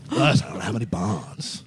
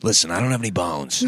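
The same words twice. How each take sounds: First: Slow, drawn-out comedian impression; Tim Dillon. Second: Lightly put-on comedian impression; Tim Dillon. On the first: Friend trying the comedian's voice, slow impersonation. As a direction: do a slow, shaky attempt at the comic. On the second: Showing a friend the comedian's voice, light impersonation. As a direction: show how the comic would say it. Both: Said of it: "know that about Tim Dillon".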